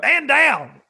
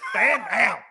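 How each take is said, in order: First: Loud, high barked order; mock command. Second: A louder repeat of the order; mock command. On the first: Joking about slipping the line into his show, loud command. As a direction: bark it like an officer. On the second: Repeating the joke order, a bit louder. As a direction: snap the order again. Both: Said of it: "I might do some stuff like that".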